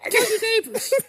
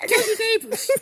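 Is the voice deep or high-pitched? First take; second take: high-pitched; high-pitched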